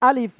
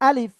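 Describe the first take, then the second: The two takes are said the same way.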